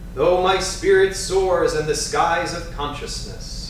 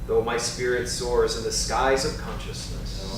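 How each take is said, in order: First: It is said in a strong, loud voice. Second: It is said in an ordinary speaking voice. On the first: "with a strong, vigorous voice" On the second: "then we'll do in a normal voice"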